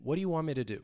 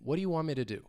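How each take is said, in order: First: The T in want is dropped after N. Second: The same.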